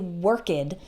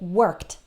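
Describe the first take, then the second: First: The ending does not sound like t. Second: The ending sounds like a plain t. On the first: The speaker calls it wrong. "we don't say worked" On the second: The speaker calls it right. "Notice that the ed just sounds like t"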